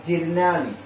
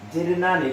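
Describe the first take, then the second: No difference in how they are said.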